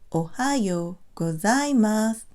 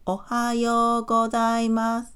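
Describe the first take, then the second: First: Syllables vary in length, with some strongly stressed. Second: Even syllables, flat, with no pitch changes. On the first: "length of syllables, stress certain syllables, and emphasize pitch" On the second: "a robot might have no rhythm and no high or low pitch accents"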